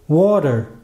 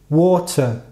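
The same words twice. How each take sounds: First: The word ends with an r-coloured vowel. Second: The word ends with a plain schwa vowel. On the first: "Se eu fosse americano, eu provavelmente pronunciaria essa palavra como water" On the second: "enquanto eu sou britânico, eu falo water, como schwa no final"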